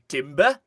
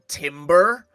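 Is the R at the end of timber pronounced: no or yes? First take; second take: no; yes. First: The final R sound is dropped. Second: The final R sound is clearly pronounced. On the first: The speaker calls it right. "It should be timber" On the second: The speaker calls it wrong. "he's really doing his R's, and it shouldn't be"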